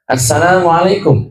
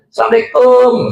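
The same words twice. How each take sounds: First: It is said with careful Arabic long and short vowels. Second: It is said with a Madurese regional accent.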